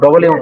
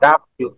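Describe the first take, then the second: First: The first vowel is rounded, like 'o'. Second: The first vowel is open, like 'a'. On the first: The speaker calls it wrong. "ডবলিউ না" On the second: The speaker calls it right.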